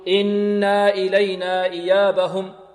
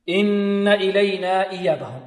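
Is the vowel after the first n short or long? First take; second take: long; short. First: The vowel after the first n is long. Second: The vowel after the first n is short. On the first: The speaker calls it wrong. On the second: The speaker calls it right.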